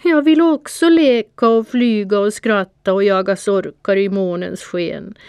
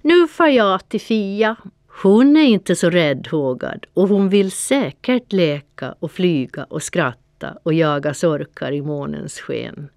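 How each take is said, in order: First: Higher and louder, a pitiful mewling plea. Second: Scornful call. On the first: The tearful cat pleading with Panter, pitiful mewling. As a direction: whine it like a tearful kitten. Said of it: "jamade jag ynkligt". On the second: Panter taunting the cat from outside the window, calling out. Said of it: "Så fnös han lite och ropade". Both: A narrator's reading.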